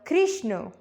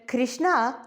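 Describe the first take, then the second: First: The final vowel is short. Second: The final vowel is long. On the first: It is the masculine name. "that's masculine" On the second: It is the feminine name. "that's feminine"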